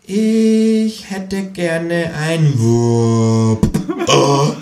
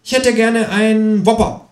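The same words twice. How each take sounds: First: Extrem langsam, jede Silbe gedehnt; für Dumme. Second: Hohe, freche Tierfigur bestellt; Känguru-Stimme. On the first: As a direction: buchstabier es dem Dummen vor. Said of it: "wiederholt das Känguru für Dumme". (extrem langsam und überdeutlich, wie für Dumme) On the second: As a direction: bestell keck als Känguru. (hohe, freche Känguru-Stimme) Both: Acted.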